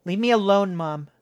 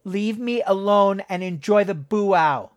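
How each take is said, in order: First: Angry growl at her mother. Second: Angry, through grinding teeth; through gritted teeth. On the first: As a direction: snap it back with a growl. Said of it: "Jessica growled". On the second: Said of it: "her teeth grinding together". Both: A narrator's reading.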